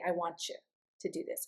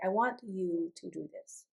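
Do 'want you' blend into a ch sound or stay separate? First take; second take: blended; separate. First: The t and y blend into a ch sound. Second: The t and y stay separate, without ch. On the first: This is the easier, everyday way to say it. "we work very hard when we're singing not to say" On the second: This is the prettier way used when singing. "We say, ... It's prettier"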